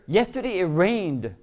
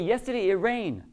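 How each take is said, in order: First: The final d sound is clearly pronounced. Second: The final d sound is dropped. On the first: It is clearly in the past tense. The speaker calls it right. "if you hear that D" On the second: It sounds like the present tense. The speaker calls it wrong. "You don't pronounce the final, the final endings"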